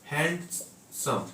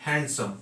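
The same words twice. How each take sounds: First: handsome said slowly in two parts, hand, then सम; split into syllables. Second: Said in the usual way. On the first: Shown as a demonstration. Teacher showing students the two syllables, handsome slowly split as hand, सम. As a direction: break handsome after hand, drawn out and softer. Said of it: "hand और सम". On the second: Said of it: "और यहाँ दो word है".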